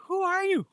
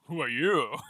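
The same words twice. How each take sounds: First: Squeaky high mock voice; mocking squeak. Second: Said in the usual way. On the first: Mocking the hooded figure's question in a squeaky high voice. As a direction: squeak it out like a silly parody.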